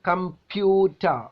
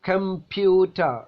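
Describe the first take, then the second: No difference in how they are said.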